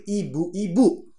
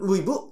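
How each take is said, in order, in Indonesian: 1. Setiap suku kata diucapkan penuh dan jelas. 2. Suku katanya dipotong-potong dan diucapkan pendek.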